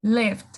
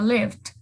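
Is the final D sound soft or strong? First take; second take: soft; soft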